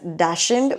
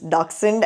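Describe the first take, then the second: First: It is said the usual Indian-English way. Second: It is said the original German way. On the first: "back in India, we're all used to pronouncing it as" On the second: "the German or the original pronunciation is"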